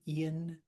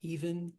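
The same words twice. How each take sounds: First: "Ian" as a one-syllable e'en; elided even. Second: Said in the usual way. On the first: Shown as a demonstration. Teacher showing elision, "Ian" said as contracted e'en. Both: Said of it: "getting rid of that extra syllable".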